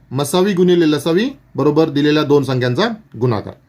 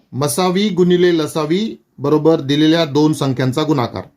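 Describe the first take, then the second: Both takes have the same delivery.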